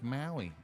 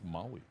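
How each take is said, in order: First: The first vowel sounds like a flat 'a'. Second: The first vowel is an open 'ah'. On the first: The speaker calls it wrong. "I was watching a news reporter today, and he's like" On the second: The speaker calls it right. "But it's Maui"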